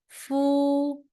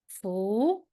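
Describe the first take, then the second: First: The pitch stays high and level. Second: The pitch rises from middle to high. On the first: "the first tone" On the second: "Second one"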